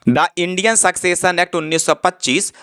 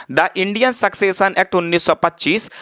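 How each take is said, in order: No difference in how they are said.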